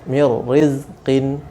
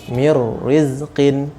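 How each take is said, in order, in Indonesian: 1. Bunyi n menyatu dengan r setelahnya. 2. Bunyi n menyatu dengan r setelahnya.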